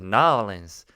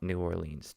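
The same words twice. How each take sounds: First: The word 'New' shrinks to a quick N. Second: The word 'New' is fully pronounced. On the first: The speaker calls it right. "Just New Orleans. You don't even need the new" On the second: The speaker calls it wrong. "it's not New Orleans. Don't even say New Orleans"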